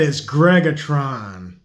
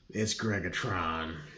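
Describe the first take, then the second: First: It is said loudly with strong, confident force. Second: It is said in a plain, casual voice.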